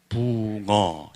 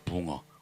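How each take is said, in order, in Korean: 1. 이 단어는 천천히 발음됩니다. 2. 이 단어는 빠르게 발음됩니다. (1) "천천히 발음하면" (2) "빨리 발음하면"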